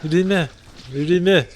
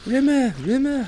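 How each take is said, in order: First: Put-on Liverpool accent that slips toward Birmingham. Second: High drawn-out Rimmer call; Rimmer impression. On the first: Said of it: "My Liverpool accent sounds too much like my Birmingham accent". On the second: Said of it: "weird territory with that impression".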